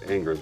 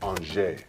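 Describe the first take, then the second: First: The name has an English-style pronunciation. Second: The name has a French-style pronunciation. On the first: This is how people at home say it. "we pronounce it Angers" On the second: This is how locals in the town say it. "when you're there, it's called Angers"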